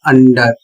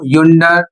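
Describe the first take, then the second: First: The word begins with a plain 'uh' vowel. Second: The word begins with a 'yu' sound. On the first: The speaker calls it right. "इसका उच्चारण होगा अंडर" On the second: The speaker calls it wrong. "अंडर को युंडर"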